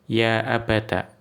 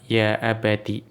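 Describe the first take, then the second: First: The word ends with an 'a' vowel. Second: The word ends with an 'i' vowel. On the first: "dengan akhiran fathah" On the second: "Kalau mau dibaca kasroh"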